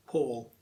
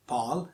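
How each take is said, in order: First: Paul as PAWL, rounded aw; drawn-out "Paul" with AW; correct vowel. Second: Pal as PAAL, open ah; drawn-out "Pal" with AA; wrong vowel. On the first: Teacher isolating the right syllable, correct Paul. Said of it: "it's Paul". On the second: Teacher isolating the wrong syllable, mispronounced Pal. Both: Shown as a demonstration.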